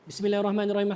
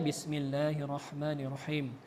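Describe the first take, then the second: First: It is recited fast. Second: It is recited at a moderate pace.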